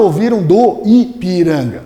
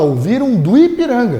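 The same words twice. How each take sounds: First: Both vowels in 'do Ipiranga' are said fully, separately. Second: The weak O glides into the I, one syllable. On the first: The speaker calls it wrong. "Ninguém fala" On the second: The speaker calls it right. "Esse O é tão fraquinho que ele quase vira um U"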